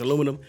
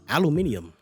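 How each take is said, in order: First: The word is said with four syllables. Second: The word is said with five syllables. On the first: This is the familiar way of saying it. "it's not alumi- aluminium, it's aluminum" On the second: This is an unfamiliar way of saying it. "I've never heard anybody pronounce it like that"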